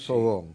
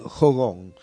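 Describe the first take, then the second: First: The word begins with an f sound. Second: The word begins with a breathy h sound. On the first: This is the standard pronunciation. "en vez de fogón" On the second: This is the rural, archaic gaucho pronunciation. "decir jogón en vez de fogón"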